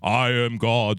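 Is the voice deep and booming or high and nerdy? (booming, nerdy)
booming. The voice is deep and booming. "God is always represented with the deep booming voice"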